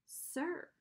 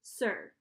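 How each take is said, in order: First: Put-on higher, softer boy's echo; obedient echo. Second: Smoothly added correction. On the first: Boy echoes Charon's prompt, soft obedient echo. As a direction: repeat it back softly, pitched up. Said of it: "I said". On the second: Charon prompts the boy for respect, smooth. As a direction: add it smoothly, expecting to be echoed. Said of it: "he added smoothly". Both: A narrator's reading.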